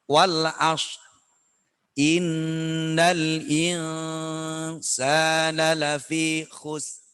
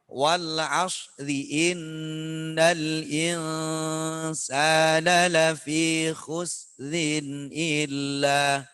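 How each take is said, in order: First: The reading stops at the verse end, dropping the ending. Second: The reading carries on smoothly into the next word. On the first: "kalau dibaca begini ... Itu lebih sulit" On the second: "Lebih gampangnya"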